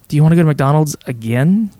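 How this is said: It is asked in a reluctant, displeased tone.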